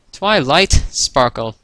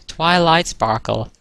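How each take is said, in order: First: Slow, louder "Twilight Sparkle" with separated words; writing it out. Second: Slow, higher-pitched "Twilight Sparkle"; dictating. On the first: Spike finishes writing the signature, sounding it out. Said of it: "Spike finished writing this last sentence". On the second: Twilight signs off her letter, dictating slowly. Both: A narrator's reading.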